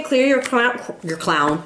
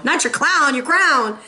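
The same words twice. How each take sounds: First: "your clown" said as clown, a slip for crown. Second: "your crown" with a clear r, stressed; correcting to crown. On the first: Slip of the tongue correcting to the viewers, saying clown. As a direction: say "clown" with an l, the wrong word. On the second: Correcting her slip for the viewers, stressing crown. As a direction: fix "clown" to "crown", lean on crown. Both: Real, not acted.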